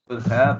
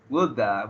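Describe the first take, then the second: First: Both words are said fully and separately. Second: The words are run together as 'woulda'. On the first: The speaker calls it right. "the formal or the correct way to say woulda" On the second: The speaker calls it wrong. "we have woulda"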